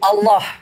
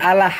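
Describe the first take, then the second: First: The first vowel sounds like an O. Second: The first vowel sounds like an A. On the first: The speaker calls it right. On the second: The speaker calls it wrong.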